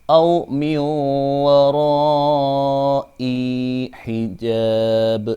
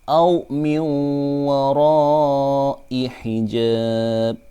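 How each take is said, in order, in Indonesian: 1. Vokal akhir dari wara'i panjang. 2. Vokal akhir dari wara'i pendek. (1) "itu tidak boleh" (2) "I-nya dibaca pendek"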